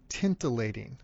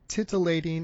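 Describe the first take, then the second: First: An extra n sound follows the first vowel. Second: The first syllable has no n sound. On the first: The speaker calls it wrong. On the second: The speaker calls it right.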